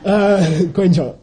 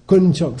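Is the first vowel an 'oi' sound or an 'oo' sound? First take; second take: oi; oo. First: The first vowel is an 'oi' sound. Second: The first vowel is a plain 'oo' sound. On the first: It is how people in Tibet actually say it. The speaker calls it right. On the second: It is the reading from the spelling. The speaker calls it wrong. "If you just looked at it and pronounced it correctly, it would say kunchok"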